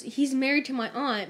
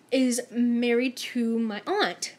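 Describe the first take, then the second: First: Said in the usual way. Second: Slow, weighty reveal of the news. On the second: Retold or imitated. Coworker reveals the family link, slow and weighty. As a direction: let each word land slowly.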